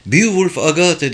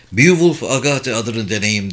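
First: Higher-pitched, tense repetition of the name; annoyed, pitch jumping up; irritated repeat. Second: A touch of sternness, narrated; firm, mildly harsh interjection; stern interruption. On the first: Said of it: "diye tekrarladı Price sinirli bir sesle". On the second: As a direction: cut in firmly, understated. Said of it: "diye sözünü kesti Cam sertçe". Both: A narrator's reading.

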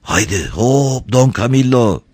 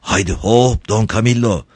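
First: Slower, higher, anxious urging. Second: Higher, cool-headed urging. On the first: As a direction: draw out the heave-ho with worry. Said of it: "oldukça endişeli bir ses". (endişeli bir sesle) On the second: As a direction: urge him to heave, keeping composure. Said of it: "Soğukkanlı bir ses duyuldu". (soğukkanlı bir sesle) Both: A narrator's reading.

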